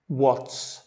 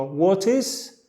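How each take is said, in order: First: What's squeezed into one syllable, wots; contracted what's. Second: Said in the usual way. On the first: Shown as a demonstration. Teacher showing the contraction what's. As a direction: run what and is together as what's. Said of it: "podemos decir what's". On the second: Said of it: "En cambio de decir what is".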